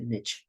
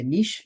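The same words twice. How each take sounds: First: Niche said "nitch", rhyming with itch; niche pronounced "nitch" with a hard ch; North American niche. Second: Niche pronounced "neesh"; European niche. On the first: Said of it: "you say niche". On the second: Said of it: "In Europe, we say niche". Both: Shown as a demonstration.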